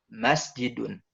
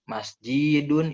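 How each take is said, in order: First: The stress is on the first syllable. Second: The stress is on a later syllable. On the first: The speaker calls it right. "kita harus tekan di huruf pertamanya" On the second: The speaker calls it wrong. "Bukan masjidun, itu salah"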